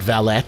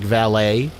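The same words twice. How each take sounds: First: The final T is sounded. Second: The final T is silent. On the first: The speaker calls it wrong. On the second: The speaker calls it right.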